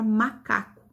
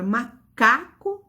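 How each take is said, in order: First: Said in the usual way. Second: "macaco" broken after MA, then a strong CA; stress on CA. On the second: Shown as a demonstration. Teacher shows the penultimate syllable, CA stressed in "macaco". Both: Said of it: "a sílaba tônica está na penúltima".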